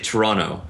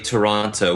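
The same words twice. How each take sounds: First: The second T is dropped. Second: The second T is clearly pronounced. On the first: This is how locals say it. "We say Toronto" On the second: This is not how locals say it. "we do not say Toronto"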